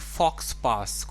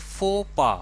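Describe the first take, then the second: First: The x and s are sounded: fox pass. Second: The x and s are silent: foh pah. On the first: The speaker calls it wrong. "शायद आप इसे पढ़ेंगे फॉक्स पास" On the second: The speaker calls it right. "लेकिन इसको हम pronounce करेंगे फो पा"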